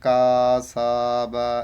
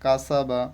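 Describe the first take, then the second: First: The syllables are drawn out and stretched apart. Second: The syllables are said quickly without stretching. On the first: The speaker calls it wrong. "কেউ যদি টান দিয়ে পড়ে, যেমন কা সা বা এইভাবে পড়লে কিন্তু হবে না" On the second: The speaker calls it right. "Just তোমাকে উচ্চারণটা তাড়াতাড়ি করতে হবে"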